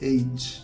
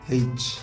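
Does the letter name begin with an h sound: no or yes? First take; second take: no; yes. First: The letter name starts with a vowel, no h. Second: The letter name starts with an h sound. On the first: This is the standard pronunciation. The speaker calls it right. "Standard নিয়ম অনুযায়ী হবে এইচ" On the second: This is a local regional pronunciation. The speaker calls it wrong. "ইংল্যান্ডের local এরিয়ায় এটাকে হেইচ উচ্চারণ করা হয়"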